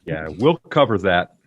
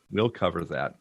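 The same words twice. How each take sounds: First: Breathy whispered aside. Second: Said in the usual way. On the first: Real, not acted. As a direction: whisper it under your breath. Whispered take of repeated line.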